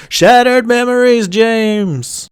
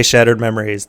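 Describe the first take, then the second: First: High, loud, drawn-out mock wail; mock eerie call. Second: Said in the usual way. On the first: Narrator repeats the line they don't say, high mock wail. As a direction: call it out high and hold the name.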